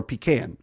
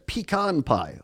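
First: Pecan said pee-CAN, with the vowel of "cat"; pecan pronounced "pee-CAN". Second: Pecan said pee-KAHN, with an "ah" in the second syllable; pecan pronounced "pee-KAHN". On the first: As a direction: say pecan so it ends like a tin can. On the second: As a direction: say pecan to rhyme with "on". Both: Shown as a demonstration. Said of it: "Is it pecan or pecan?".

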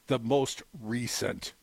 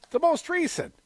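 First: Low, drawn-out, falling finish; slow quote ending. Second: RECENT pitched much higher; emphatic repeat. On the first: Retold or imitated. Closing a quoted Garland statement, slow and low. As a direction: read it slowly and lower, letting it settle. Quote ends, then repeated for emphasis. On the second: Real, not acted. Echoing the quote to the co-host, high and emphatic.

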